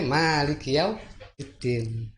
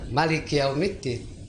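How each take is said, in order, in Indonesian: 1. Huruf vokal pertama pada Maliki itu panjang. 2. Huruf vokal pertama pada Maliki itu pendek. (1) "Panjang karena ada alif" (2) "maknya pendek"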